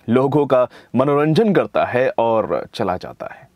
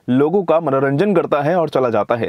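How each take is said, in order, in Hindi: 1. यह भावपूर्ण तरीके से, एक अभिनय वाले वॉइसओवर की तरह पढ़ा गया है। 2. यह सपाट तरीके से, बस जल्दी-जल्दी पढ़ा गया है। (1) "तो चलिए इसका वॉइस ओवर करते हैं।" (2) "ये तो सिर्फ फर्स्ट रीडिंग होती है, गो थ्रू कर रहे हैं आप।"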